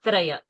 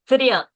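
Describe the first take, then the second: First: The first syllable has an 'a' vowel sound. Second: The first syllable has an 'i' vowel sound. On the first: The speaker calls it wrong. "and not Traya" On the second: The speaker calls it right. "So Triya and not Traya"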